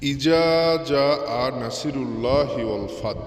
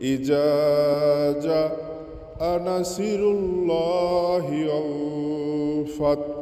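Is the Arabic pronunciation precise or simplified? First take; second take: simplified; precise. First: The Arabic sounds are simplified, not carefully articulated. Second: The Arabic sounds are articulated carefully and precisely. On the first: The speaker calls it wrong. "উচ্চারণ সঠিক না করেও আপনাদেরকে পড়ে শোনালাম" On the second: The speaker calls it right. "আরও অনেক বিশুদ্ধভাবে আপনারা পড়তে পারেন"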